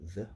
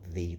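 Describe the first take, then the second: First: The vowel is a reduced, lazy schwa. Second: The vowel is a full E sound. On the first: "when you're saying it in a rapid sentence" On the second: "not the though, because that's an E"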